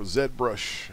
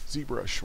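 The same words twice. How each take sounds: First: The first letter is pronounced 'zed'. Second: The first letter is pronounced 'zee'.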